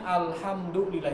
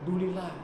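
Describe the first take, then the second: First: The whole phrase is said in full. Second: The phrase is clipped, dropping its beginning. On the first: The speaker calls it right. "itu yang benar" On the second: The speaker calls it wrong. "Tapi dulilah"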